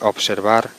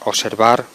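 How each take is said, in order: First: The consonant cluster is fully pronounced. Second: The consonant cluster is simplified. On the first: It is the standard form. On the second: It marks a vulgar, nonstandard register.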